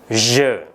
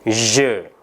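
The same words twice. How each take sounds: No difference in how they are said.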